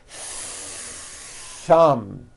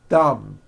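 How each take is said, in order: First: The th is held long with audible air friction. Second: The th is short with no audible air friction. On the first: The speaker calls it right. "Notice how long I'm holding the T H sound" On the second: The speaker calls it wrong. "My tongue came out, but there was never any air friction. That's not good"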